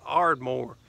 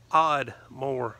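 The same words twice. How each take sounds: First: Said in the usual way. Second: Oddmore said with the r dropped, like Odd-more; local Oddmore. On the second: Retold or imitated. Locals naming their own town, southern Oddmore with no r. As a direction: Oddmore as the Ardmore locals say it, in a light southern accent. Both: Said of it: "Over there they pronounce it Oddmore".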